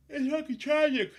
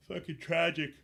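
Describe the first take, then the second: First: Much higher, loud despairing cry; shouted exasperation, far higher; outraged shout. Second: Higher, louder exasperated verdict; fed-up complaint; disgusted. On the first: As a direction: blow up in disbelief. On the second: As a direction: spit out the disgust. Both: Real, not acted. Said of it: "repeated escalation".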